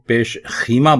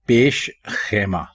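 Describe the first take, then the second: First: The vowel after 'kh' is 'ee'. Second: The vowel after 'kh' is 'ai'. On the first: The speaker calls it wrong. "लोग इसको पेश खीमा बोलते हैं" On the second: The speaker calls it right. "खे के ऊपर जबर है, जेर नहीं है"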